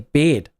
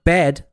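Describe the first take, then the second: First: Bed is said in a New Zealand accent. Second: Bed is said in a standard accent. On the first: "they say bed" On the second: "Instead of bed"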